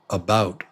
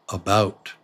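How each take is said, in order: Both takes have the same delivery.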